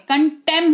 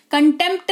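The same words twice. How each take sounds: First: कंटेम with silent p and t, ending on m; correct pronunciation. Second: कंटेम्प्ट said with the p and t both sounded; wrong pronunciation. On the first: Teacher shows students the right way, कंटेम ending on m. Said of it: "कंटेम्प्ट नहीं होता है". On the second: Teacher shows students the wrong way, कंटेम्प्ट with p sounded. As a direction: demo the wrong way, कंटेम्प्ट with a clear p. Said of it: "कंटेम्प्ट नहीं होता है boss". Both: Shown as a demonstration.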